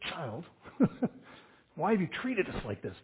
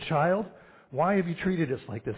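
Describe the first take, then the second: First: It is said in a stern, scolding tone. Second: It is read in a flat, even tone.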